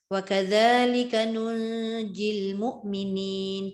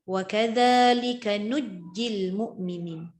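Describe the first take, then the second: First: A nasal n sound is heard before the j. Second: The n is dropped and the j is doubled. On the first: This follows the usual reading tradition. "Dia jadi hukum ikhfa kat sini" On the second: This follows another reading tradition. "hilang nun"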